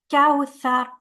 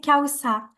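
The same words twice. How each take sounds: First: The middle consonant sounds like th. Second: The middle consonant sounds like s. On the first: The speaker calls it right. "that's a th" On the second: The speaker calls it wrong. "We can't say kawthar. This is a very common mistake uh, to say se here"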